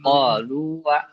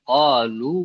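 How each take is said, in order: First: The word ends with an added 'wa' sound. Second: The word ends on a long 'u' sound. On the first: The speaker calls it wrong. "bukan qalu wa" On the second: The speaker calls it right. "jadi bacanya tetap qalu"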